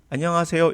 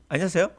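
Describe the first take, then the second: First: Every syllable is pronounced fully and clearly. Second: Syllables are slurred and shortened together. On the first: The speaker calls it right. "이게 정확한 발음이에요" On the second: The speaker calls it wrong. "이거는 안녕하세요 아니에요"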